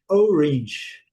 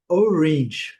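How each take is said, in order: The two takes are said the same way.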